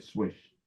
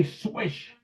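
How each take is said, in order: First: Low, soft announcer swish; lightly voiced radio announcer, quiet and low; broadcaster's swish. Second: High, soft little swish; a kid calling his own shot, softly and high; kid's swish. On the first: Imitating Glickman calling a made basket, low and soft. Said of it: "'cause Marty Glickman said". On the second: Retold or imitated. Boy on the street court calling his good shot, soft and high. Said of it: "I would say".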